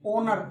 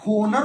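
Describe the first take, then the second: First: It starts with no h sound. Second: It starts with a pronounced h sound. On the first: The speaker calls it right. "H silent" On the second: The speaker calls it wrong. "होना चाहिए था"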